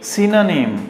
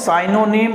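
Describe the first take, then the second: First: The first syllable sounds like 'sin'. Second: The first syllable sounds like 'sigh'. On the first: The speaker calls it right. "सिनोनिम correct होता है" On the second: The speaker calls it wrong. "Not साइनोनिम"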